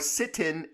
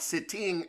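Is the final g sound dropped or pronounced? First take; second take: dropped; pronounced. First: The ending is said without the final g sound. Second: The ending is said with the final g sound. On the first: "You are sitting at the table" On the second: "not sitting at the table"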